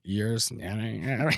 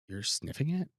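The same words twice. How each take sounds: First: It is said in a dazed, spaced-out way. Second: It is said in a plain, normal way.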